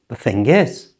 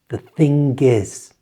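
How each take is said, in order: First: The phrase is said at normal speed. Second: The phrase is said slowly and carefully. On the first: "at normal speed"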